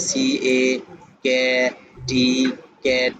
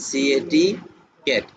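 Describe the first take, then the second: First: "C A, cat, T, cat" split midway, the half-word sounded before "T"; broken-up spelling. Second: "C A T" spelt in one run, then "cat" whole; read as one. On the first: Teacher showing trainees what not to do, "C A, cat, T, cat" broken into pieces. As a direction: break "C A, cat, T, cat" into separate chunks with pauses. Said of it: "এভাবে ভাঙে পড়ানো যাবে না". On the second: Teacher modelling for trainees, "C A T" unbroken, then "cat" whole. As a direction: say "C A T, cat" without breaking inside the word. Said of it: "একসঙ্গে পড়াইবেন".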